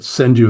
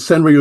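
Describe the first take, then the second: First: The middle consonant sounds like a D. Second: The middle consonant sounds like an English R. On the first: This is how the word is actually pronounced. "is the way it's pronounced. The R is pronounced as a D" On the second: This follows the spelling. "is the way it looks"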